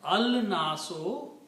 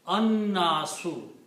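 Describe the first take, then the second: First: The L is sounded before a single N. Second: No L is heard and the N is doubled. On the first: The speaker calls it wrong. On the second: The speaker calls it right.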